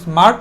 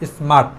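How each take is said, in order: First: The r sound is pronounced. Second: The r sound is silent. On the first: The speaker calls it wrong. "আমরা স্মার্ট না বলে" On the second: The speaker calls it right. "আকে silent রাখছি"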